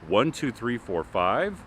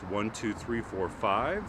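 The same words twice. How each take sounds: First: The voice comes from directly in front. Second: The voice comes from the side. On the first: "first straight on" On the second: "Now at ninety degrees"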